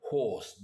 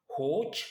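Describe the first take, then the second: First: "horse" with an H, a long O and a final S; English horse. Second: "horse" with an H, a long O and a final "tch"; Yai horse. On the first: Teacher contrasting with the English "horse", final S. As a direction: end "horse" with a clear S. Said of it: "alors qu'en anglais, on va plutôt prononcer". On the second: Teacher showing the Yai "horse", long O and "tch". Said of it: "on va plutôt prononcer le he avec le o long et le tch". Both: Shown as a demonstration.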